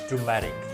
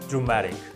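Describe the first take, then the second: Both takes have the same delivery.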